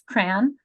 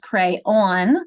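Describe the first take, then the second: First: The word has one syllable. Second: The word has two syllables. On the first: "with one syllable, it's crayon" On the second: "two syllables, crayon, um, where the second syllable rhymes with dawn"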